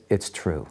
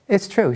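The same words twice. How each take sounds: First: Low, soft retold confession; sighing admission. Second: Imitating her, pitched way up; high-pitched retold confirmation; emphatic admission. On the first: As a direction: admit it quietly, as after a sigh. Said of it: "she sighs". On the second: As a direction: insist on it in a high, falling exclamation. Wife repeats her admission when questioned.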